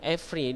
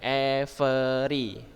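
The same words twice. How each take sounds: First: The word is said with two syllables. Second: The word is said with three syllables. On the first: "Jadi bacanya every ya, every. Dia dua suku kata" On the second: "Kalau every kan tiga kan, every kan tiga"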